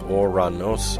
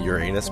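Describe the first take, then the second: First: The name begins with an 'oh' sound. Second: The name begins with a 'you' sound. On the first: This is how the name was originally said. "the original pronunciation of the god's name was, it, it was something more like or, Oranos" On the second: This is the anglicized form people use today. "it's been kind of anglicized to Uranus. People say Uranus"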